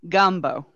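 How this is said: It is said with unrounded north Louisiana vowels.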